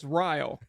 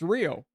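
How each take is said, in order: First: It uses the local Wisconsin pronunciation of Rio. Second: It uses the usual worldwide pronunciation of Rio. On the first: "In Wisconsin, it's Rio" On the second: "for the entire world is pronounced Rio"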